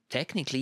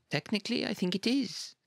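First: Said in the usual way. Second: "technically" pitched much higher, rising, reluctant; reluctant emphasis. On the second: A narrator's reading. Reluctant high repeat.

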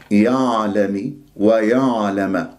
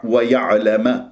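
First: يعلم with the ayn from the upper throat; wrong, shallow ayn. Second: ويعلم with a jolted ayn; wrong, bouncing ayn. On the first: Teacher demonstrating a wrong throat point. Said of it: "هذا خطأ". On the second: Teacher demonstrating a common mistake. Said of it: "هكذا خطأ". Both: Shown as a demonstration.

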